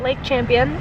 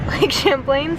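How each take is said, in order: First: The name ends sounding like 'champion'. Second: The name ends sounding like 'plain'. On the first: The speaker calls it wrong. "It's not Lake Champion" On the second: The speaker calls it right. "it is Lake Champlain"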